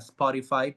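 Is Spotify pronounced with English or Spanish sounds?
English. It is pronounced with English sounds. "diga Spotify, pues eso lógicamente no, suel, no sale natural"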